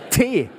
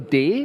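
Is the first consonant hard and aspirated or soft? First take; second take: hard; soft. First: The first consonant is a hard, aspirated T. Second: The first consonant is a soft, unaspirated D. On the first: "mal ein hartes Tee mitzubringen" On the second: "was ihr sagt"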